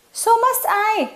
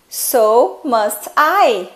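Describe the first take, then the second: First: High quick reply. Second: Very slow demo. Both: Shown as a demonstration.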